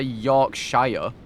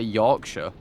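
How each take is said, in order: First: The ending is said like the word shire. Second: The ending is said like the word sure. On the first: This is not how the speaker's region says it. The speaker calls it wrong. "I don't say Yorkshire" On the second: This is how the speaker's region says it. The speaker calls it right. "I say Yorkshire"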